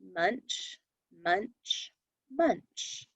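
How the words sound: Small pauses separate each of the words. The speaker calls it right. "I read them with the pause in between"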